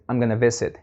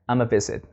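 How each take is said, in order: First: The phrase keeps both parts, I'm and gonna. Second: The phrase is merged quickly into one short sound.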